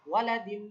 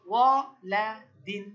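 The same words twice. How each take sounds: First: Said in the usual way. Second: ওয়ালাদিন stretched slowly and loud; teacher modelling ওয়ালাদিন slowly; slow model word. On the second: Shown as a demonstration. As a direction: draw out every syllable of ওয়ালাদিন. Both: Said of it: "কি উচ্চারণ?".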